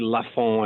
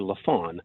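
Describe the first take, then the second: First: The name is pronounced the French way. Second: The name is pronounced the anglicized English way. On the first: "I don't say Lafon" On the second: "sort of the bastardized English version"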